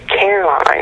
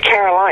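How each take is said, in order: First: The name is said with a Southern drawl. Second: The name is said in a neutral accent. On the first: "he was very southern drawl. He said Caroline" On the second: "I pronounced it Caroline"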